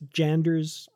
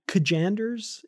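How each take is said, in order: First: The name begins without a K sound. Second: The name begins with a K sound. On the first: "silent K" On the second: "is that how we're saying his name?"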